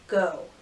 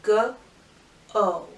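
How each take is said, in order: First: Said in the usual way. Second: "G-O" as separate sounds, guh, oh; sounded out. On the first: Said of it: "the first word is go". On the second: Shown as a demonstration. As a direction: sound out "G-O" with a gap between the sounds. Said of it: "every sound you hear".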